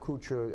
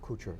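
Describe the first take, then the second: First: The name is said with a French pronunciation. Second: The name is said without a French pronunciation. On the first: The speaker calls it wrong. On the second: The speaker calls it right.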